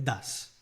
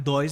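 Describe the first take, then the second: First: The vowel is a short 'uh', as 'duhz'. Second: The vowel glides like 'oy', as 'doys'. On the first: The speaker calls it right. "É das" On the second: The speaker calls it wrong. "Não é dois, não"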